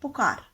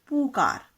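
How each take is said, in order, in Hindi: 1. पहला स्वर छोटा है। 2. पहला स्वर लंबा है। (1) "जब आप किसी को पुकारते हो कैसे बोलते हो?" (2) "ना कि पुकार"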